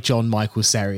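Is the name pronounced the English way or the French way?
English. The name is pronounced with English sounds. The speaker calls it wrong.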